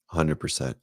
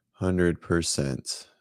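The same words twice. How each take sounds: First: Said in the usual way. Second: Hundred percent drawn out very slowly, each word weighted; slow emphatic. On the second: Shown as a demonstration.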